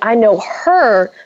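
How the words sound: The stress is on the word 'her'. It is her, not someone else, that I know. "So you're emphasizing the her"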